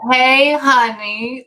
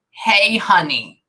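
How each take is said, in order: First: Louder, higher, very drawn-out woman's call; imitated woman's singsong hello, big and slow. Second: Slow, drawn-out greeting from a woman; a long, lingering hello to a sweetheart; woman's voice greeting. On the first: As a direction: stretch it right out, calling to a sweetheart. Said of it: "like that". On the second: Retold or imitated. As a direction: say it slowly, as the woman heard. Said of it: "I hear a woman's voice and it says".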